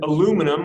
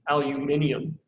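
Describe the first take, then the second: First: Said with four syllables, ending in -num. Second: Said with five syllables, ending in -nium. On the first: This is the form used in the United States. The speaker calls it wrong. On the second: This form sounds correct and fancy. The speaker calls it right.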